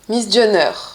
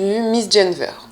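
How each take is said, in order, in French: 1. On le prononce selon la prononciation de l'île de Groix. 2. On le prononce selon la prononciation du continent. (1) "en tout cas à Groix" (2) "j'ai entendu Miss Jenver"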